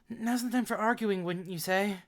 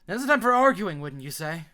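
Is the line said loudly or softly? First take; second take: softly; loudly. First: It is said very softly and quietly. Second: It is said loudly and boldly.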